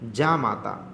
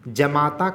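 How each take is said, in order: First: The first vowel is long. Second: The first vowel is short. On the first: The speaker calls it right. "जा जमाता का शुद्ध क्या होता है, जामाता" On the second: The speaker calls it wrong. "जमाता का क्या होता है"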